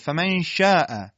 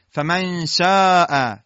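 First: The shin is a spread sh sound. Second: The shin sounds like a sharp s. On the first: The speaker calls it right. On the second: The speaker calls it wrong.

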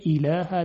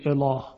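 First: The L is light and thin. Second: The L is heavy and full. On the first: The speaker calls it right. "باز لام ترقیق میشه" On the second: The speaker calls it wrong. "نمیگوییم"

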